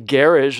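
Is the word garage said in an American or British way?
British. The word is said with a British pronunciation. "They say garage"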